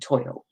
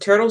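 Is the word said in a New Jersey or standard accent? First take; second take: New Jersey; standard. First: It is said in a New Jersey accent. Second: It is said in a standard accent. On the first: The speaker calls it right. "in New Jersey, you pronounce it toidle because that's the proper way" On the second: The speaker calls it wrong. "if you pronounce it turtle"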